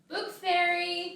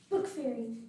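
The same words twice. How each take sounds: First: It is called loudly. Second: It is called softly.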